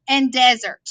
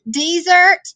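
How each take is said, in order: First: Desert stressed on the first syllable, DEZ-ert; desert as in sand. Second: Desert stressed on the second syllable, de-SERT; desert as in leave. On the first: Teacher contrasting the pair for students, desert said DEZ-ert. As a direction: lean on the start of desert. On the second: Teacher contrasting the pair for students, desert said de-SERT. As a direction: lean on the end of desert. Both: Shown as a demonstration. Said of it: "So you have".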